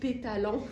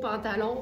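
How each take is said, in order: First: The first syllable is playfully changed to pé. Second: The word is said with its usual first syllable. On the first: "on va dire mais quel beau pétalon" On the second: "on va pas dire quel beau pantalon"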